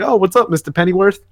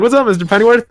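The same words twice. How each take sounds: First: Put-on a lightly higher goofy young guy voice; odd voice for Rick. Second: Put-on goofy young guy voice, pushed higher and louder; exaggerated silly voice. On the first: Rick greeting Alfred at the bar, silly put-on voice. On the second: Rick greeting Alfred again, hammed-up goofy voice. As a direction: ham up the silly voice even more. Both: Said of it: "I don't know why I made him sound like that".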